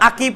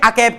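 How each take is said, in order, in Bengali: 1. দ্বিতীয় স্বরধ্বনিটি লম্বা 'ee' উচ্চারণ। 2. দ্বিতীয় স্বরধ্বনিটি 'ay' উচ্চারণ। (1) "উচ্চারণ আকিব করেছে" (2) "নাকি আকেব করেছি"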